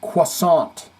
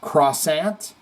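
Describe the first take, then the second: First: Croissant. said "kwa-SAHN", no r, nasal end; French croissant, Croissant. as "kwah-sahn"; proper French croissant. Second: Croissant? said "krah-SANT" with hard r; anglicized croissant, Croissant with an r and flat a; mock English croissant. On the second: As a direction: say Croissant? the American way, "kruh-SANT". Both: Shown as a demonstration. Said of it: "I say it the proper way".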